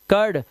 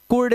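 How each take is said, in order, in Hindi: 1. स्वर एक केंद्रीय 'er' ध्वनि है। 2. स्वर एक गोलाकार 'oo' ध्वनि है। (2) "कुर्ड नहीं करना है"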